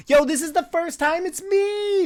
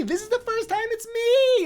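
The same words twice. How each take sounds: First: Excited. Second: Much higher, squeaky repeat of "me"; squeaky excited. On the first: Excited streamer sees own answer. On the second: Streamer squealing to chat at finally being picked. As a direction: squeal it with delight. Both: Real, not acted.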